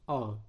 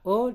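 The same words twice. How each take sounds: First: O as an open, low-pitched vowel; O pronounced as in pokok. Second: O as a close, rounded vowel; O pronounced as in toko; closed O. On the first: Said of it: "dan sekelompok yang dibaca". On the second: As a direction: say O tight, like in toko. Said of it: "ada sekelompok yang dibaca O". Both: Shown as a demonstration.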